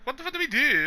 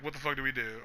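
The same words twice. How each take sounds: First: "What the fuck do we DO" pitched high and punched on we; stress shift. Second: Said in the usual way. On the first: Acted. Friends panicking, retrying the line higher and louder. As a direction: lift the second try, hitting "we" high. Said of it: "Or like". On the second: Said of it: "And they're like".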